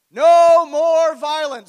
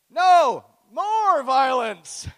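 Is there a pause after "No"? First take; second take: no; yes. First: It is said with no pause after "No". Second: It is said with a pause after "No".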